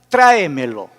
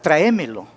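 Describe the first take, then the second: First: The stress falls on the standard syllable. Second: The stress falls on a shifted syllable. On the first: The speaker calls it right. "correctamente es tráemelo" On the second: The speaker calls it wrong. "es modismo, regionalismo"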